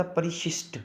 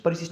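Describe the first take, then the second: First: Said in the usual way. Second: परिशिष्ट said "parisisht", first sh as plain s. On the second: Shown as a demonstration. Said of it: "नहीं होता".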